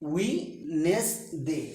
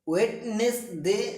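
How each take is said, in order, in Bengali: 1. Wednesday-এর মাঝের D শব্দটি নীরব থাকে। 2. Wednesday-এর মাঝের D শব্দটি উচ্চারণ করা হয়। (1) "ডি উজ্জ থাকবে" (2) "নয়"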